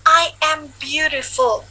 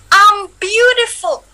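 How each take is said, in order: First: I and am are said as two separate words. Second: I and am are merged into one syllable. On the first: "kalau I am itu kepanjangannya" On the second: "am itu jadinya singkatannya dari I am"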